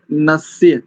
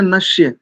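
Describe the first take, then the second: First: नस्य with a clean dental s, nasya; नस्य said with a crisp dental s; correct pronunciation. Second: नस्य with a palatal sh, like nashya; नस्य said wrongly as nashya; wrong pronunciation. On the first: Teacher showing students the dental s, correct pronunciation. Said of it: "शुद्ध उच्चारण है नस्य". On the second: Teacher showing the common mistake, wrong sh sound. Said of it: "अशुद्ध उच्चारण है नस्य". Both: Shown as a demonstration.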